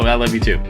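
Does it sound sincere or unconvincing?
unconvincing. It sounds flat and unconvincing.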